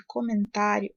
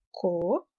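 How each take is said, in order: First: Said in the usual way. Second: Low, measured syllable division of comentário. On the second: Shown as a demonstration. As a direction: break comentário into co, men, tá, rio with long pauses. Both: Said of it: "se a gente fizer a separação silábica".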